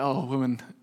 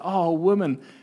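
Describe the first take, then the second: First: It sounds weary and exasperated, like giving in. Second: It sounds warm and amazed, full of admiration. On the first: The speaker has been worn down and gives in. The speaker calls it wrong. "It's not like, "Oh, woman, okay, you've worn me down."" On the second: The speaker is amazed by the woman's faith. The speaker calls it right. "It's an expression of admiration, amazement"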